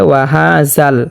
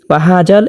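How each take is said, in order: First: The consonant is made very soft and thin. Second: The consonant is made hard, like a j. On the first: "একেবারে নরমভাবে, একেবারে পাতলা করে" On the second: "জালটাকে শক্ত করে পড়ে থাকেন"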